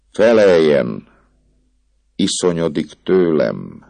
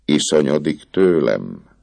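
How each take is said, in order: First: Hangos, magasabb, erőszakos felszólítás; a pap rákiabál, választ követel. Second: Said in the usual way. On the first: A narrator's reading. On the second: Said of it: "kérdezte végül a pap".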